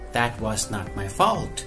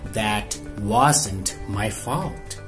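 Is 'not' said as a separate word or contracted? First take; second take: separate word; contracted. First: The word not is said in full. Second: Not is contracted into wasn't.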